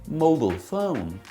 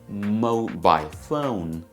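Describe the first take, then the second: First: It is said in a General American accent. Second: It is said in a British BBC accent. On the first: "In G A English, mobile phone is pronounced as" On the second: "But for B B C, we have"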